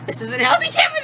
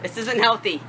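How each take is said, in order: First: Much higher, louder squealed complaint. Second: Said in the usual way. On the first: Real, not acted. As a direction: squeal it out from the cold. Repeating while iced.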